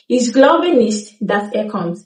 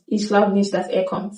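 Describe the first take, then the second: First: Nicht with its t, slow Ich glaube nicht, dass er kommt; slow careful sentence; full form. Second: Nicht with the t cut off softly in Ich glaube nicht; quiet casual sentence; reduced form. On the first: Teacher gives the slow full sentence. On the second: Teacher shows the spoken sentence. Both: Shown as a demonstration. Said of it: "cut off the T softly".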